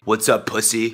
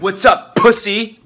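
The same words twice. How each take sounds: First: It is said with low energy. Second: It is said with high energy.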